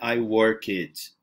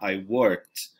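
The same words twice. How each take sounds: First: The ending is pronounced as a separate extra syllable. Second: The ending is a single T sound, one syllable. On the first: The speaker calls it wrong. "Não é I worked ... a gente não separa aqui, tipo, duas sílabas" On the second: The speaker calls it right. "Tem um sonzinho aí de T"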